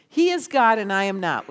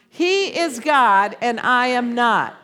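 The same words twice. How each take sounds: First: Said in the usual way. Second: Slower and louder, each word weighed; slow emphatic declaration. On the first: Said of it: "I want you to say this with me". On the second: Shown as a demonstration. Leading the congregation in a slow emphatic declaration. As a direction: proclaim it for the congregation to echo. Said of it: "Will you say that right now?".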